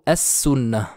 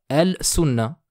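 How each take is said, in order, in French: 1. Le L se fond dans un S doublé. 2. Le L se prononce devant le S. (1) "plutôt as-sunna" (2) "Je ne dirai pas al-sunna"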